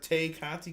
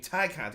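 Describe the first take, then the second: First: The first name rhymes with 'day'. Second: The first name rhymes with 'tie'. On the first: The speaker calls it wrong. "I don't know why I keep saying Tay" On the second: The speaker calls it right. "but it's Ty"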